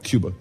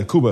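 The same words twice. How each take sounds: First: "Cuba" said KYOO-ba, with a y glide; English pronunciation. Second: "Cuba" said KOO-ba, with no y sound; Spanish pronunciation. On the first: Preacher shows what not to say, "Cuba" as KYOO-ba. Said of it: "not Cuba". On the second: Preacher shows how to say it, "Cuba" as KOO-ba. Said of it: "That's how you say it". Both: Shown as a demonstration.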